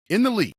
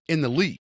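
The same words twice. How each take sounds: First: Higher and louder, hammering the point home; emphatic repeat. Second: Said in the usual way. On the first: Real, not acted. Hyping up his receiver, emphatic higher louder repeat.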